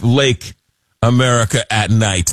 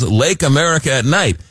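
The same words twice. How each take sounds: First: Pitching the new name, savoring each word; proposing a name. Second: Lake America at Night. said in one run, a touch higher; repeating it like a station slogan; proposing a name again. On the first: Host to listeners, presenting the name with a pause. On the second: Host to listeners, repeating the new name as a slogan. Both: Shown as a demonstration. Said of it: "That's what it should be called".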